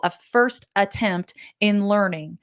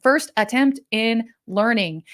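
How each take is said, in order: First: Said in the usual way. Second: Slow, with "first" stressed; spelling out the acronym. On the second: Shown as a demonstration. Speaker explaining the acronym to the audience, slow and deliberate. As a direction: lay out "first attempt in learning" word by word. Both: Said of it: "That's our acronym".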